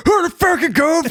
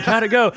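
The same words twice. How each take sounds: First: Very high, strained mocking screech; angry yell back. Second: Higher, light friendly question; imitated wife. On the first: Comedian yelling at his friend's wife who called, high incredulous screech. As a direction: hurl the question back in a shrill outburst. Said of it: "got to yell at your wife". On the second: Comedian imitating the wife calling after the set, light innocent voice. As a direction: ask innocently in a raised pitch. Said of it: "'cause she called".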